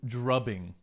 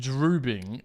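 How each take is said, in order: First: The first vowel is a short u sound. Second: The first vowel is a long oo sound. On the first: "it's probably more like dr- drubbing ... a bit like clubbing" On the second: "I read that as droobing ... droobing sounds like drooling"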